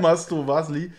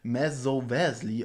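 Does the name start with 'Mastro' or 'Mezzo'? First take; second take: Mastro; Mezzo. First: The first part of the name sounds like 'Mastro'. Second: The first part of the name sounds like 'Mezzo'. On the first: The speaker calls it right. "Ist aber ja" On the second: The speaker calls it wrong. "ich habe ihn immer fälschlicherweise ... Mezzo Vasli ausgesprochen"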